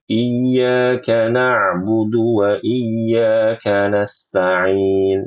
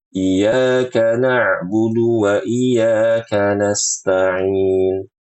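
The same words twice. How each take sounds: First: The y sound in iyyaka is held doubled. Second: The y sound in iyyaka is short, single. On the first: The speaker calls it right. "Harusnya dibaca" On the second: The speaker calls it wrong. "Yang artinya hanya kepada mataharilah kami beribadah"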